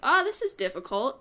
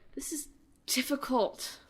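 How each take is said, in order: First: It sounds pleased, relishing the challenge. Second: It sounds frustrated, complaining about the challenge.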